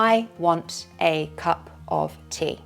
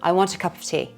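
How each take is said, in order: First: It is slow, with each word clipped apart. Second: It is fast, with the words running together. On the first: "First slowly, Staccato" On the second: "then native speed. Faster"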